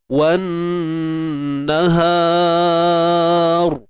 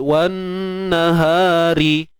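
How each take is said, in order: First: The r is heavy, said at a full stop. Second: The r is light, said with a vowel after. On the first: The reader stops on this word. "Ra kena kena tebal" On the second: The reading continues without stopping. "Ra ni kita baca ni nipis"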